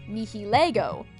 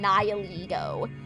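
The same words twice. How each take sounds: First: The name is pronounced with Latin-style sounds. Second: The name is pronounced with English-style sounds. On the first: This is how fans said it before the English dub. "pronounced its name the Latin way" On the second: This is how the English dub says it. "It took me a while to adjust to saying"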